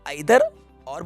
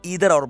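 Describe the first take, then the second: First: The word begins with an 'eye' sound. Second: The word begins with an 'ee' sound. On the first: This is the British form. "British English में इसको आइदर और बोला जाता है" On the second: This is the American form. "American English में इसको ईदर और बोला जाता है"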